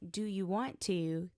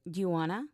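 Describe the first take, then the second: First: Every word is said fully and separately. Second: 'Want to' is blended into 'wanna'. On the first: "Instead of" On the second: "they said"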